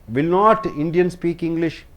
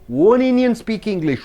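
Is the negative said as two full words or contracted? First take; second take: full words; contracted. First: The negative is said as two full words. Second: The negative is contracted into one syllable. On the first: The speaker calls it wrong. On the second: The speaker calls it right.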